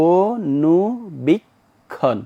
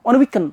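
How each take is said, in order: First: Each syllable is released separately with breaks. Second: The whole word is said in one run. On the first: The word has four syllables. The speaker calls it right. "তুমি এভাবে তোমাকে বলতে, অনুবীক্ষণ, অনুবীক্ষণ, অর্থাৎ তুমি তোমার এখানে সম্পূর্ণ ছেড়ে দিতে হবে" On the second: The word would count as one syllable. The speaker calls it wrong. "যদি এভাবে বলে অনুবীক্ষণ, তাহলে একটা অক্ষর"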